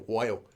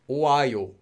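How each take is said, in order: First: The o and a blend quickly into wa. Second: The o and a are said as separate vowels.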